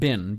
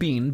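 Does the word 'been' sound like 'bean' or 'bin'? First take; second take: bin; bean. First: The vowel is short, like in 'sin'. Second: The vowel is long, like in 'seen'. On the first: This is how Americans say it. "you pronounce it bin" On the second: This is how Canadians and Brits say it. "Me saying bean"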